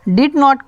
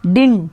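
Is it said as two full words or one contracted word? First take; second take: full; contracted. First: It is said as two full words. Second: It is said as one contracted word. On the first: "डिड नॉट का" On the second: "contraction डिन"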